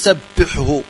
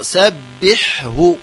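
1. تمتزج الحاءان في صوت واحد. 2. يُسمع كل حاء منهما بوضوح. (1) "لا نقول سبحه، يعني فهو خطأ" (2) "هكذا بتبيين الحاء الساكنة ثم هاء"

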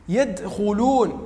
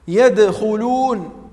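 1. يُنطق الدال مع خروج هواء نفَسي. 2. للدال إطلاقٌ مرتجّ مجهور. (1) "يعطيها صفة الهمس"

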